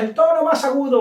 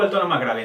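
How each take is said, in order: First: High, louder illustration of pitch. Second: Low-pitched tone. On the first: Trainer explaining what tone is not, high-pitched. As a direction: lift the voice high for the example. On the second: Trainer contrasting tone with pitch, lower-pitched. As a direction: let the pitch drop for the example. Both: Shown as a demonstration.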